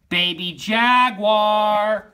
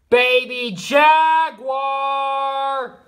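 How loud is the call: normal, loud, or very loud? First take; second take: normal; very loud. First: It is called at normal loudness. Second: It is called loudest of all.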